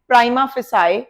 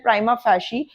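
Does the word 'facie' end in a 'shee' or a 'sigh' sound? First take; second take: sigh; shee. First: The second word is said like 'fay-sigh'. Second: The second word is said like 'fay-shee'. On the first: The speaker calls it wrong. "बहुत सारे lawyers इसे pronounce करते हैं" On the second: The speaker calls it right. "इसका right pronunciation है"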